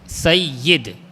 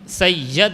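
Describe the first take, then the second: First: The y sound is doubled, with an i vowel. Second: The y sound is short and single. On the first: The speaker calls it right. "ये पर तशदीद है और ज़ेर है" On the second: The speaker calls it wrong. "सैयद नहीं"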